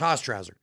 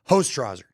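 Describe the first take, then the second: First: The first syllable does not sound like 'hose'. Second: The first syllable sounds like the word 'hose'. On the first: This is how Canadians say the name. "every Canadian says, no, that's Hostrauser" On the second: This is the pronunciation the announcer was given. "the pronunciation given to me was H O S E"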